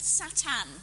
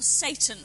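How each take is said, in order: First: Satan said the Hebrew way, sah-TAHN; Hebrew pronunciation. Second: Satan said the English way, SAY-tn; English pronunciation. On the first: Lecturer naming the Hebrew character, Hebrew pronunciation. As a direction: say Satan as sa-TAN, second vowel open. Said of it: "saying it in the Hebrew pronunciation". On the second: Lecturer glossing the name for listeners, English pronunciation. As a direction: say Satan with a long AY, stressed first. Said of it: "as we would say it in English". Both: Shown as a demonstration.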